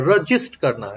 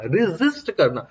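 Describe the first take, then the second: First: Said in the usual way. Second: "रेजिस्ट" slowly drawn out as ree-ZIST; careful pronunciation. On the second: Shown as a demonstration. Teacher breaks down the term's name, "रेजिस्ट" slow and careful. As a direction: say "रेजिस्ट" slowly, with a clear z sound. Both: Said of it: "resistance देखो नाम ही क्या है".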